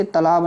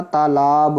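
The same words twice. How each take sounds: First: "तालाब" with a short first a; short-vowel "तालाब". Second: "तालाब" slow, both vowels long. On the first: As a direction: say तालाब as ta-laab, quick first syllable. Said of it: "नहीं होता". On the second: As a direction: draw out taa-laab in तालाब. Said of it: "होता है". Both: Shown as a demonstration.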